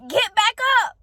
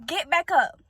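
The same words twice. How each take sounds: First: "Get back up" pitched higher, insistent; emphatic urging. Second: Said in the usual way. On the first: Real, not acted. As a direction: urge them harder on "Get back up". Repeats exhortation with more force.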